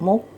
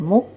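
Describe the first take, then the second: No difference in how they are said.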